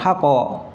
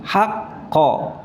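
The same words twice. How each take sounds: First: The q is cut flat without any echo. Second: The q is released with a bouncing echo. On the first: The speaker calls it wrong. "bukan haqqa. Kalau haqqa berarti tajwidnya enggak ada" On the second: The speaker calls it right. "qalqalahnya itu ada jedahnya"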